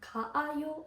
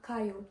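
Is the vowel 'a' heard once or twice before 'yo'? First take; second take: twice; once. First: Two separate a-vowels are heard before yo. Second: A single a-vowel is heard before yo. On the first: The speaker calls it wrong. "када буде не кааю" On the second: The speaker calls it right. "а каю"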